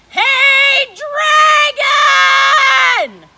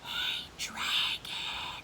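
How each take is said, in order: First: It is shouted very loudly. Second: It is whispered very softly.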